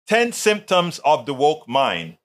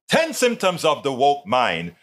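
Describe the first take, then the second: First: It is read plainly, without added expression. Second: It is read with more style and expression. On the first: The speaker calls it wrong. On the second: The speaker calls it right.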